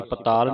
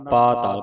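First: ਪਤਾਲ as "pa-taal", quick first syllable; wrong short first vowel. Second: ਪਾਤਾਲ as "paa-taal"; long first vowel. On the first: Teacher warning students of a misreading, ਪਤਾਲ with short "pa". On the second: Teacher correcting students, ਪਾਤਾਲ with long "paa". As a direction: stretch the opening "aa" of ਪਾਤਾਲ. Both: Shown as a demonstration. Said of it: "ਪਤਾਲ ਨਹੀਂ ਪੜ੍ਹਨਾ".

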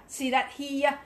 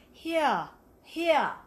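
First: HERE as an Australian "hee-ya"; Australian vowel on HERE; Aussie accent. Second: HERE as a British "hee-ah"; careful British accent on HERE. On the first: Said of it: "That's an Aussie". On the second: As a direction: practice HERE with an English vowel, the repeat higher and louder. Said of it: "I have to get the". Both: Shown as a demonstration.

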